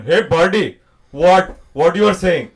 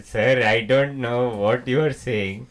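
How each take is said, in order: First: Loud, brash Indian accent; broad, pushy Indian-accented question; second Indian accent. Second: Slow, polite Indian accent; restrained Indian-accented politeness; first Indian accent. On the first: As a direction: challenge a pal in a punchy Indian accent. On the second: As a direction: say it measured and formal in an Indian accent. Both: Shown as a demonstration. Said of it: "there are two Indian accents".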